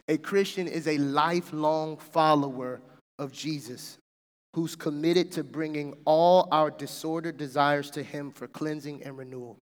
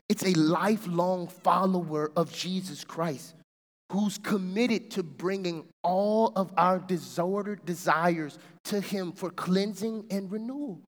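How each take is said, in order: First: It is read at normal speed. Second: It is read slowly.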